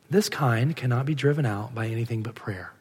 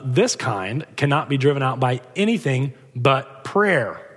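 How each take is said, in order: First: It is said in a patient tone. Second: It is said in a sarcastic tone.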